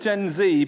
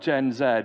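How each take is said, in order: First: The final letter is said as 'zee'. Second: The final letter is said as 'zed'. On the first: This is the generation's own way of saying it. "that's how they'll pronounce it" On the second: This is not the generation's own way of saying it. "not Gen Z"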